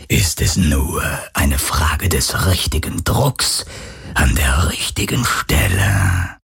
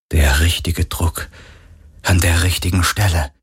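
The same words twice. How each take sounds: First: Much lower, slow, menacing drawl of a ghost; unconcerned phantom. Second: Said in the usual way. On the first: Acted. The phantom threatens Kirai, low and unconcerned. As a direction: calmly savour the threat. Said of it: "sagte das Phantom unbekümmert". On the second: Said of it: "narrator echoes the phantom's words".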